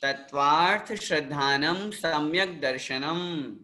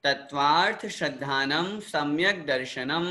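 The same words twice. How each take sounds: First: Tattvartha श्रद्धानम सम्यक दर्शनम recited with the tune falling to close; falling recitation. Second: Tattvartha श्रद्धानम सम्यक दर्शनम recited with the tune rising at the end; rising recitation. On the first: Teacher repeating the sutra for students, ending on a fall. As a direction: settle दर्शनम down to a final close. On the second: Teacher reciting a sutra for students to repeat, ending on a rise. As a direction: lift the last word दर्शनम upward as if to continue. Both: Shown as a demonstration. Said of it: "जैसे जैसे मैं यहाँ से बोल रहा हूँ".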